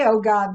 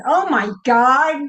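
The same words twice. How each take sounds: First: Said in the usual way. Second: Higher, louder stunned "Oh my God"; stunned exclamation. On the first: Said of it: "the way that you say it". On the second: Shown as a demonstration. Showing the group how she says "Oh my God" when stunned. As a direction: blurt out "Oh my God" in shock. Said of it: "when I'm absolutely stunned".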